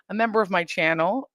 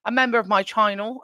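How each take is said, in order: First: Said in the usual way. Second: A slip into a light British accent on "a member of my channel", saying "channel" as "tyannel"; lightly put-on British lilt, said a little higher. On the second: Real, not acted. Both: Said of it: "why I went British right there".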